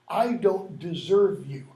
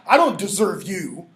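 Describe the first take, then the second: First: It is said in a humble, admiring tone. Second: It is said in a different, not humble tone. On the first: The speaker calls it right. "In other words, I'm not worthy" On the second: The speaker calls it wrong.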